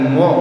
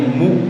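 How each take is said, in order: First: The vowel sounds like an open 'o'. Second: The vowel sounds like a rounded 'u'. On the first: The speaker calls it wrong. "bukan mo ya" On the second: The speaker calls it right. "tapi mu"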